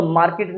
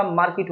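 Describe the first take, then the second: First: "मार्केट" with an ay sound in the second syllable; wrong pronunciation of market. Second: "मार्केट" with a short i in the second syllable; correct pronunciation of market. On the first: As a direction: say "मार्केट" as maar-kayt. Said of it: "मार्केट नहीं होता". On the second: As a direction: say "मार्केट" as maar-kit. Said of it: "मार्केट होता है". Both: Shown as a demonstration.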